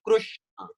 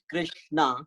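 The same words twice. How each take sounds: First: Krishna said as Krushna, "ru" after the K. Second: Krishna said with a "ri" after the K. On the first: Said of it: "some other people call it". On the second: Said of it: "how people pronounce it slightly different". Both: Shown as a demonstration.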